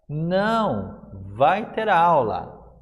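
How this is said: There is a pause after não. There will be class after all. "Perceberam como a entonação muda a partir do uso da vírgula?"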